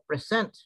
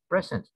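First: The stress is on the second syllable. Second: The stress is on the first syllable. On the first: It is a verb meaning to introduce. "iba naman ito. Verb ito eh" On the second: It is a noun meaning a gift. "the accent is in the first syllable"

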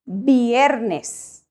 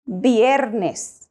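No difference in how they are said.

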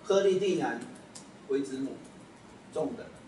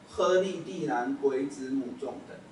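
First: There is a pause after the fourth syllable. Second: The phrase is said without a pause in it. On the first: It seems to name two separate deities. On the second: It names a single deity.

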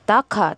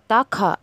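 No difference in how they are said.

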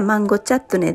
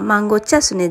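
First: The word is pronounced chattone with a t sound. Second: The word is pronounced chasune with an s sound. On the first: The speaker calls it right. "マンゴーチャットネです" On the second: The speaker calls it wrong. "マンゴーチャスネじゃなくて"

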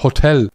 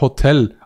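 First: It is said with an Austrian pronunciation. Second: It is said with a Swiss pronunciation. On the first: The speaker calls it right. "Die Österreicher sagen mir immer ... Aber es heißt Hotel" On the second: The speaker calls it wrong. "ich sag Hotel"

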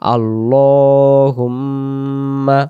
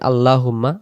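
First: The l sound is heavy and full. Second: The l sound is light and thin. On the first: The speaker calls it right. "লা না পড়ে ল বলে পড়তে হবে" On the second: The speaker calls it wrong. "এখন আমরা ভুল কি পড়ি"

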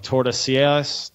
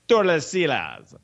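First: The name is said in a plain accent. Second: The name is said in an exaggerated accent. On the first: The speaker calls it wrong. "I always say this wrong" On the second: The speaker calls it right. "Just try to say it as offensively as you can"

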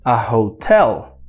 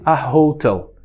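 First: The stress is on the second syllable. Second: The stress is on the first syllable. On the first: The speaker calls it right. "a gente pronuncia a hotel" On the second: The speaker calls it wrong. "não fale a hotel"

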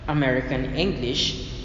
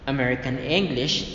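Both takes have the same delivery.

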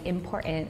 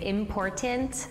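First: The middle T is swallowed, not released. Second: The middle T is clearly pronounced. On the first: "I say important" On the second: "Instead of saying important"

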